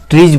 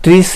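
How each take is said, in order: First: The word ends with a buzzing z sound. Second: The word ends with a hissing s sound. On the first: The speaker calls it right. "ट्रीज बोलेंगे" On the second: The speaker calls it wrong. "ट्रीज नहीं बोलेंगे"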